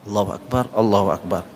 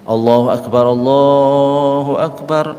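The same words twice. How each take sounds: First: It is said softly, barely audible to others. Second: It is said loudly, like a public call. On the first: It is a private reply to the call. "tapi pelan" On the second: It is the call to prayer itself. "umpama saya saya azan"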